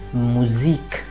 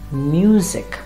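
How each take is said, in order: First: The word is said with German sounds. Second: The word is said with English sounds. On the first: "in German we'll always pronounce it as Musik" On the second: "in English will be pronounced as music"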